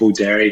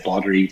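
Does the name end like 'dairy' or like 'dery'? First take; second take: dairy; dery. First: The ending sounds like the word 'dairy'. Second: The ending is a short, reduced 'dery'. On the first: "You got to put dairy in there" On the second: "some people might say Boddery"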